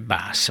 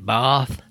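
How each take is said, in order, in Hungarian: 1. A név végén magyar s hang van. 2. A név végén angol th hang van. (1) "én magyarul azt mondom" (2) "az angolos kiejtés"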